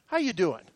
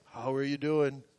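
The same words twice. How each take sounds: First: Low, soft, laid-back check-in; casual greeting. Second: Very low, soft, fully worded greeting; mock a careful, formal check-in, pitched way down. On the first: Retold or imitated. Friend drops by the pastor's office in hard times, imitated casual greeting. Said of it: "Just in the intonation in his bo-, voice". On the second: Showing how the friend did not greet him, mock formal greeting. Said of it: "He didn't come up and say".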